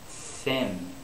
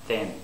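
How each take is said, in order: First: The th is made with plenty of air. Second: The th is made with too little air. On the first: The speaker calls it right. "Thin is the correct way to do it" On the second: The speaker calls it wrong. "I didn't have enough air"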